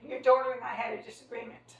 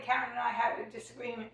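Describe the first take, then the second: First: Daughter pressed harder, like a cold label; stress on daughter. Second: Said in the usual way. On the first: Retold or imitated. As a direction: lean on daughter instead of the name. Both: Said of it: "She didn't even say my name".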